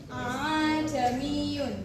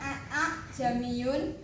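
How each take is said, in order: First: The second hamzah is softened and blurred. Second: The two hamzahs are said separately. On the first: The speaker calls it right. "disyarat atau digusur" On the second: The speaker calls it wrong. "bukan dipisah"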